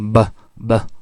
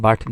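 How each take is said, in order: First: The word ends with a glottal stop. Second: The word ends with a clear t sound. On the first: "they say" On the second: "instead of producing but"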